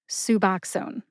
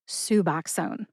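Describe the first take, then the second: Both takes have the same delivery.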